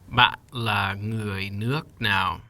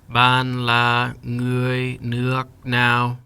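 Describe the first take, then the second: First: Each word is said with its full tone. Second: Each word is said flat without its tone. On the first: "Now let's add the tones" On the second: "Say each word without a tone"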